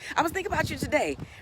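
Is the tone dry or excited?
excited. It is said warmly, with smiling excited energy. The speaker is truly glad to see the person. The speaker calls it right. "Making sure that you smile really big"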